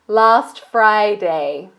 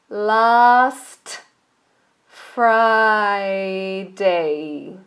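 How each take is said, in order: First: The phrase is said quickly, sounds run together. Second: The phrase is said slowly, each sound separate. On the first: "and then fast"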